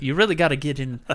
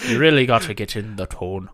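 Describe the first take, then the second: First: Said in the usual way. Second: Louder, shaky-footed Scottish that drifts Irish; loud amateur Scottish accent; attempted Scottish accent. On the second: Shown as a demonstration. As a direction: try a Scottish accent, landing near Irish. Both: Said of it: "trying to do a Scottish accent".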